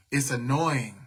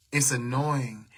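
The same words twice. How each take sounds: First: Breathy whisper under her breath; whispering to herself that it's annoying; whispered annoyance. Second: Said in the usual way. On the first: Real, not acted. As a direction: let the irritation slip out in a whisper. Muttering her irritation to the live.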